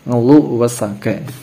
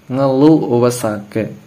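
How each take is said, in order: No difference in how they are said.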